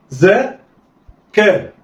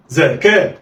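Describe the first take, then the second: First: "زا", pause, then "كا"; letters sounded apart. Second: "زكاة" as two open syllables, za-ka, joined; snatch za-ka in "زكاة" with no pause; snatched together. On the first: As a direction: say "زا" and "كا" as separate syllables. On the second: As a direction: blend "زكاة" like one word. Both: Shown as a demonstration. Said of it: "دي طريقة الخطف".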